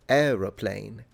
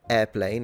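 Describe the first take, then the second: First: The word starts with 'aero', three syllables. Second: The word starts with 'air', two syllables. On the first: "She literally pronouncing it aero. Plane" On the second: "at least I pronounce it airplane"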